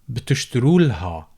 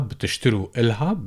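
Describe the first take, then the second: First: The vowel before the l sound is dropped. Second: A vowel is said before the l sound.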